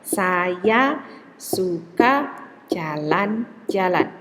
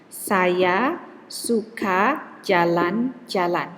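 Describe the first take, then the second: First: Slow and even, every syllable equal; "Saya suka jalan-jalan" spoken slowly with equal beats on saya, su, ka, ja, lan; syllable-timed demo. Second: Each syllable given the same length, slowly; "Saya suka jalan-jalan" said slowly, every syllable equally long; even syllable timing. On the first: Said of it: "I pronounce it at the same amount of time". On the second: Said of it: "For example, I have a sentence". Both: Shown as a demonstration.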